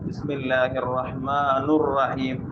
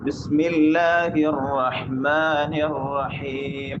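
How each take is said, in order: First: The word after Rahman ends in 'ur'. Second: The word after Rahman ends in 'ir'. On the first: The speaker calls it wrong. "അതും തപ്പായ റൂപ്പായിട്ട്" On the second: The speaker calls it right. "ഇങ്ങനെയാണ് ഓതണേ"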